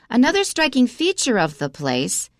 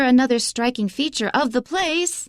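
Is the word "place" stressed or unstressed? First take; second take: unstressed; stressed. First: The word place is said without stress. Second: The word place is said with strong stress. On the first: The speaker calls it right. "so we don't stress it. So we should say it this way" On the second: The speaker calls it wrong. "it's too strong because place is just a pronoun"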